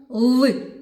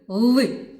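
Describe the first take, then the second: Both takes have the same delivery.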